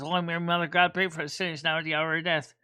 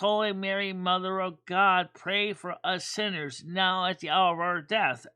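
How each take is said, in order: First: It is said fast. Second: It is said slowly.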